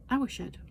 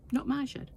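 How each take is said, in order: First: "Our" stressed, fall at the end. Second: "my" stressed, pitched higher. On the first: Correcting herself about whose shed, "Our" stressed. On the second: Correcting herself about whose shed, "my" stressed. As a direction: lean on "my" to set it against "Our". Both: Shown as a demonstration.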